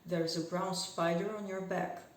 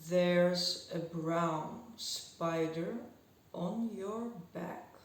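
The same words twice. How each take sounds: First: It is spoken at a fast, lively pace. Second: It is spoken at a very slow pace.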